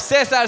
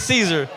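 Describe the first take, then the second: First: The name is said the Spanish way. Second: The name is said the usual English way. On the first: The salad's name comes from Mexico. The speaker calls it right. "No, Cesar salad" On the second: The listener assumes the familiar English name. The speaker calls it wrong.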